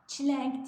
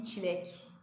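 First: "Çilenk" louder and higher, with an added n; emphatic mistaken "Çilenk"; wrong pronunciation. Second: "çilek" without any n before k; correct pronunciation. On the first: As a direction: put an n before the k in "Çilenk". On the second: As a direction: end "çilek" on a plain -ek. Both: Shown as a demonstration. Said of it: "Çilenk değil".

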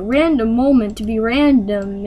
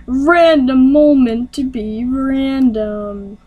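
First: Said in the usual way. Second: Slow, drawn-out show title announcement; segment announcer. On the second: Pretend. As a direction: stretch each word like a segment title.

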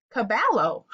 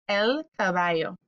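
First: Caballo with a hard English L, ca-BAL-lo; wrong pronunciation. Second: El caballo with the double L as a Y, ca-BA-yo; correct pronunciation. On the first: Pretend. Teacher voicing a student, caballo with an L sound. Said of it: "Now, you're saying". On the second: Shown as a demonstration. Teacher to kids, caballo with the double L as a Y. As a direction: say caballo with a Y sound, not an L. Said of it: "it makes the Y sound".

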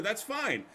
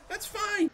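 First: Said in the usual way. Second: Mock-cheery high "That's fine."; high mocking repeat. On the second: Shown as a demonstration. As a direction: repeat it much higher, sing-song.

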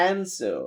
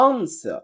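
First: American "answer" with AE vowel and clear final R; American accent. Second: British "Answer" with open AH and silent R; British accent. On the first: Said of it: "American বলে". (American উচ্চারণে) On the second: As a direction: say "Answer" the British way, AHN-suh. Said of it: "ব্রিটিশরা বলতেছে আ". (British উচ্চারণে) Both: Shown as a demonstration.

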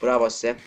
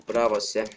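Both takes have the same delivery.

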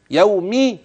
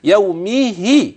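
First: Said in the usual way. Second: "يومه" very slowly, with the kasra on the m and the h stretched; slow demonstration of "يومه"; drawn-out kasras. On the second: Shown as a demonstration. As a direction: elongate "يومه" to show its vowels. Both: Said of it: "كسرة الهاء والميم".

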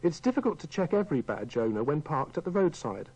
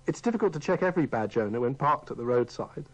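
Both takes have the same delivery.

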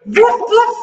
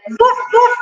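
First: Dog bark. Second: Higher, barked woofs; playful dog woofs. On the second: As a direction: bark like a dog for the kids. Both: Shown as a demonstration. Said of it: "Sound of dog".

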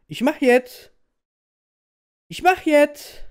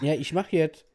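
First: Much higher, louder shout. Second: Said in the usual way. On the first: Real, not acted. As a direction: yell it back impatiently. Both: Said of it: "Red nicht zu viel, mach einfach".

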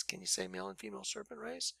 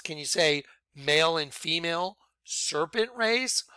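First: Softer, fast throwaway repeat; quick quiet aside. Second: Said in the usual way. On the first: Shown as a demonstration. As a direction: toss it off under your breath, quickly.

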